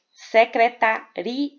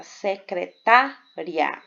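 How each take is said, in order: First: Secretaria slowly split as se-cre-ta-RI-a; five syllables, hiatus. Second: Secretária slowly split as se-cre-TÁ-ria, stress on TÁ; four syllables. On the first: Teacher showing students a hiatus, secretaria with i and a pulled apart. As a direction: say secretaria with a long stressed RI, then a separate a. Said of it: "nós temos cinco sílabas". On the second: Teacher counting four syllables for students, secretária broken up with a closing diphthong. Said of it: "aqui nós temos quatro". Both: Shown as a demonstration.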